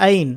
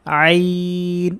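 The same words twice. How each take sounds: First: আইন short, with an ordinary Bangla vowel opening; Bangla pronunciation. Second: আইন from mid-throat, very slowly drawn out; Arabic pronunciation. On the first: Teacher showing what Bangla letters would give, Bangla-style আইন. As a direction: say আইন as a plain Bangla word, no throat sound. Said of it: "সরেয়া দিয়ে পড়লে এটা হতো". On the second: Teacher asking students to repeat along, Arabic আইন. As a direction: hold a long, level Arabic আইন with a throat onset. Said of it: "আরবিকে আরবির মতো করেই". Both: Shown as a demonstration.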